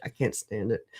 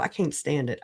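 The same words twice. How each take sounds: First: Lower, much softer echo; quiet repeat. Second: Said in the usual way. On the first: Real, not acted. Streamer venting about hypocrites, muttered lower and softer. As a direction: let the repeat sink, low and soft.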